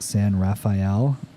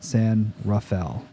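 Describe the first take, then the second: First: The name is said the way outsiders say it. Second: The name is said the way locals say it. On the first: The speaker is not from the area. The speaker calls it wrong. "Everybody that doesn't know where I'm from in California pronounces it" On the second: The speaker is from the area. The speaker calls it right. "we call it"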